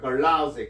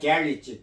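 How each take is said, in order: First: It is said in an American accent. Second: It is said in a British accent. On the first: "미국 사람들은 이제 걸라지 그럽니다" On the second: "영국 사람들은 그, 이걸 게리지라고도 발음합니다"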